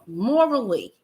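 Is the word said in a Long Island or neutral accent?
Long Island. It is said in a Long Island accent.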